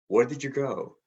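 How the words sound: The voice falls at the end.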